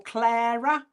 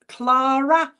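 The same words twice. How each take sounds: First: "Clara" said KLAIR-uh, with an air vowel; now try "Clara" as KLAIR-uh; "Clara" said as KLAIR-uh, the second of two guesses; second version of Clara. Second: "Clara" said KLAH-ruh, with an open ah vowel; "Clara" said as KLAH-ruh, the first of two guesses; first version of Clara. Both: Shown as a demonstration. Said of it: "I couldn't quite catch it".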